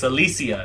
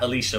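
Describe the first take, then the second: First: The middle consonant is a plain 's' sound. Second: The middle consonant is an 'sh' sound. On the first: The speaker calls it right. "It's Alicia" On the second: The speaker calls it wrong. "not Alicia"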